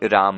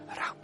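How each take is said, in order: First: The word is spoken aloud in full voice. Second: The word is murmured quietly under the breath.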